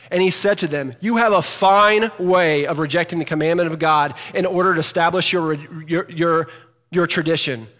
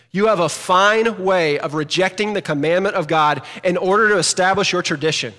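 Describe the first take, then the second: First: Louder sarcastic scripture reading; emphatic reading. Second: Emphatic reading. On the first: Pastor rereading verse nine with sarcastic emphasis. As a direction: read it right, with the exclamation. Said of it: "you need to read it right". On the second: Pastor to church, reading Jesus' rebuke emphatically. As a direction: read it like an exclamation. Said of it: "I read that emphatically". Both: Shown as a demonstration.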